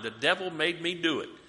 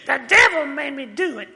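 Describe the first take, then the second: First: It is said in his normal voice. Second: It is said as an impression of Flip Wilson's Geraldine.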